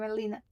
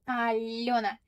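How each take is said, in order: First: The middle sound is a plain 'ee'. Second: The middle sound is a soft 'yo'. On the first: This is the adapted form used abroad. "So here I'm Alina, like this" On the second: This is the original native form of the name. "In Russian, it sounds like Alena"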